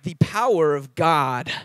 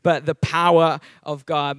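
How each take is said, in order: First: It is said in a more neutral accent. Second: It is said in a broad Australian accent. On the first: This is how it must be said for a local audience. "In Taiwan, I have to be more like" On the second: This is the speaker's natural home accent. "I think I'm getting my Australian accent back"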